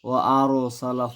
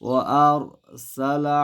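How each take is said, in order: First: An extra vowel is inserted after the r. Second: The r closes the syllable with no added vowel. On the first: The speaker calls it wrong. "বেশিরভাগ মানুষই ভুল পড়েন" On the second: The speaker calls it right. "ও আরো সালা হবে না"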